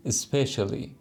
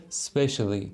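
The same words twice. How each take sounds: First: "especially" opening on a short "i" sound; "especially" with a short, light first syllable; short initial vowel. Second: "specially" starting straight on the s; "specially" with no vowel before the s; no initial vowel. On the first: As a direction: put a brief vowel before the s in "especially". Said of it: "اولش یه ای کوتاه داره". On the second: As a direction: begin "specially" with a clean "sp" cluster. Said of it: "هم یه دونه اولش ای هست، یکی هم نیست". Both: Shown as a demonstration.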